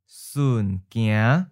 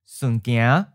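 First: It is said slowly and carefully. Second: It is said at a natural, quick pace. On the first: "and then slow" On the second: "Once natural speed"

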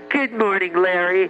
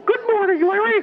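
First: It is said in the speaker's normal voice. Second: It is said in a Mickey Mouse voice.

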